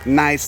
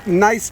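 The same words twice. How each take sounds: First: It is said in a Chicago Italian-American accent. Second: It is said plainly, without any put-on accent. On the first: It is the adjective ending a sentence. The speaker calls it wrong. "the way that the Italian Americans from Chicago end a sentence" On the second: It names the rock gneiss. The speaker calls it right. "Not like that"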